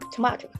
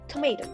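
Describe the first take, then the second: First: An Australian accent with an open 'ah' middle vowel. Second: An American accent with an 'ay' middle vowel. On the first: "Australian also pronounce it tomato" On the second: "U S use the diphthongs A"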